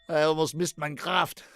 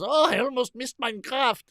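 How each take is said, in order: First: It is said in the speaker's plain accent. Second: It is said in a put-on German accent.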